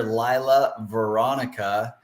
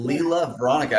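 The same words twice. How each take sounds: First: Lila said as LIE-la, long i like "lie"; mispronounced name. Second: Lila said as LEE-la, vowel of "see"; corrected name. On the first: Host introducing guest, mispronounces her name Lila as LIE-la. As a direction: say Lila with the vowel of "eye", slowly. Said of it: "I apologize". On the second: Host corrects himself after guest says Lila, LEE-la. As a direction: fix Lila to LEE-la, clearly. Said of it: "Oh, Lila". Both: Real, not acted.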